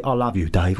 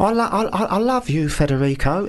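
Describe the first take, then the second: First: Said in the usual way. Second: Mock Italian romance. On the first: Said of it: "and then say". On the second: Shown as a demonstration. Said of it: "Say this, say that".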